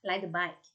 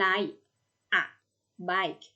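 First: Said fast with the a merged into ride. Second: Said slowly with each word kept separate. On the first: "ถ้าสมมติว่าอ่านแบบเร็วเสียงตัว a เสียงอะตัวนี้จะถูกรวบไปกับเสียงตัวแรกท้ายของ" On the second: "ถ้าอ่านช้าๆ"

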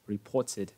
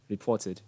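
First: The middle t is a clear t sound. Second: The middle t is a clear t sound.

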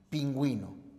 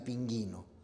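First: A 'w' sound follows the g. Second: No 'w' sound follows the g. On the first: The speaker calls it right. "O en lingüística y pingüino" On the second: The speaker calls it wrong. "serían también pronunciaciones incorrectas"

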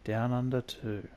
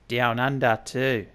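First: It is said in the speaker's ordinary accent. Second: It is said in an exaggerated put-on Australian accent.

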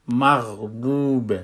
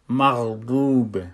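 No difference in how they are said.

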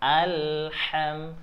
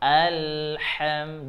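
No difference in how they are said.

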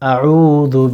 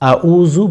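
First: The middle consonant is a voiced th sound. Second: The middle consonant is a plain z sound. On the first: The speaker calls it right. "আউযু বিকা এভাবে বলবেন" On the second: The speaker calls it wrong. "আউযু বলবেন না"

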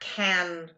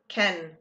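First: The vowel is full and open, like 'can'. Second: The vowel is short and reduced, like 'ken'. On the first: The speaker calls it wrong. "Not can" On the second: The speaker calls it right. "Remember that Ken has an interesting pronunciation"

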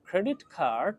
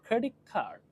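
First: 'Credit' ends with a clear t sound. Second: 'Credit' ends with a k sound before 'card'. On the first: "then the টি changes to a খ। So ক্রেডিট card becomes" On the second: "then the টি changes to a খ"

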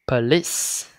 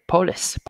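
First: The first vowel is a reduced schwa. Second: The first vowel is a full vowel. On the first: The speaker calls it right. "nó là p, p, police" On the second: The speaker calls it wrong. "không phải police"

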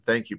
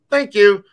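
First: It is said in a plain conversational tone. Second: It is said in a distinct, marked cue tone. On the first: It is just a word in conversation. "I'm not saying the way I would say it to my dog" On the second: It is a signal to the dog to stop barking. "I would say it to my dog might be"

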